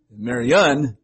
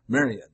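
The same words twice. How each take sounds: First: "Marianne" punched loud on the final ANNE; stress on last syllable. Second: "Marian" stressed on MA, light unstressed ending; stress on first syllable. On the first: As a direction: lean hard on the end of "Marianne". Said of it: "always an accent on certain parts". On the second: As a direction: hit the MA of "Marian", let the rest drop. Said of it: "then the emphasis on M A". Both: Shown as a demonstration.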